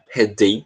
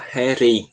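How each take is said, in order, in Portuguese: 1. A consoante do meio é um som de D claro. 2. A consoante do meio é um toque rápido, parecido com R. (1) "com esse som de D assim bem, bem claro" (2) "transformando esse som de D em som de R"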